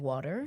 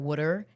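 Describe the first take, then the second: First: It is said in a standard accent. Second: It is said in a Philadelphia-area accent. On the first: This is how others say it. "instead of water" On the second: This is how people near Philly say it. "the only things we say are water"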